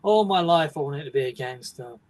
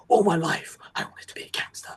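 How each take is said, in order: First: Bored narrator, no big deal; laid-back, offhand. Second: Hushed, whispery movie-trailer intensity; overdramatic delivery. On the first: Showing how the actor does say it, bored and offhand. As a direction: say it casually, voiced and unimpressed. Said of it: "sounds like it's a, not a big deal". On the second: Showing how the actor doesn't say it, whispered and overdramatic. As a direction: breathe it out as a big dramatic confession. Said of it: "he doesn't say it like". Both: Shown as a demonstration.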